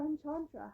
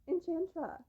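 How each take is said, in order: First: "Enchantra" with an open "ah" in "chant"; broad-a pronunciation. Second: "Enchantra" with a flat "a" as in "ant"; short-a pronunciation. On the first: Reviewer offering the other way of saying the book title, broad-a "Enchantra". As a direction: say "Enchantra" like "en-CHAHN-truh". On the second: Reviewer trying one way of saying the book title, short-a "Enchantra". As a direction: say "Enchantra" so "chant" rhymes with "ant". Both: Shown as a demonstration. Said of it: "however you say it".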